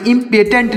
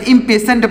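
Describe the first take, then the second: First: "इम्पेटेंट" with a hard t sound in the last syllable; wrong pronunciation. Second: "इम्पेशेंट" with sh for the written t; correct pronunciation. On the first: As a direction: misread "इम्पेटेंट" with t in place of sh. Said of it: "इम्पेटेंट नहीं पढ़ेंगे". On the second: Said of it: "टी लिखा गया इसका उच्चारण होगा श". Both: Shown as a demonstration.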